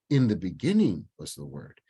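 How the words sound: The stress falls on the word "beginning". The time at the very start is what matters most. "then I'm emphasizing in the beginning"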